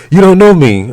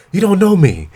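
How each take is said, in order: First: High and loud mock protest. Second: High mocking imitation of her; whiny high protest. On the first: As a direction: shout it back high. Mimicking her protest, louder.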